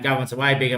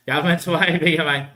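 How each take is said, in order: First: Said in the usual way. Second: Louder, higher, breaking into a laugh on "way". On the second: Real, not acted. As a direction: crack up mid-line. Says the line twice, laughs.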